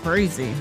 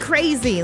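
First: It is said in a worried, warning tone. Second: It is said in an excited, delighted tone. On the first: Something could be trouble to watch out for. "uh-oh, watch out for that winner" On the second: Something will be a lot of fun. "oh, so fun"

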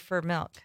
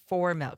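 First: It is said with a strong Wisconsin accent. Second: It is said with a neutral general accent. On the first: "I go there for milk" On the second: "not for milk"

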